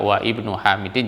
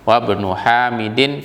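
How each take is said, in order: First: The 'i' is pronounced as a separate start. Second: The 'i' is dropped and the words run together. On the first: "kalau kita baca wa ibnu Hamidin juga nggak ada masalah" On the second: "kemudian langsung wabnu"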